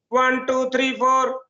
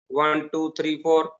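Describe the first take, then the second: First: The voice is pitched high and sharp. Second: The voice is pitched low and thick.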